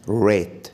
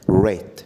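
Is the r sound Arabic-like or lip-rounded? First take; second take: lip-rounded; lip-rounded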